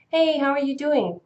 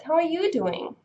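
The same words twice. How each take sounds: First: Said in the usual way. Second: "you" pitched high, falling away on "doing"; stress on YOU. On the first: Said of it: "if you want to answer with". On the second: Shown as a demonstration. Redirecting the question to the other person, stress on "you". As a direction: turn it back by punching "you". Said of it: "you need to emphasize you".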